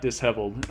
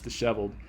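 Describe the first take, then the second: First: It is said as 'dis' plus 'heveled'. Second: It is said with one 'sh' sound. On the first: The speaker calls it wrong. "that's not how you pronounce the word. It's not disheveled" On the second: The speaker calls it right. "it's disheveled"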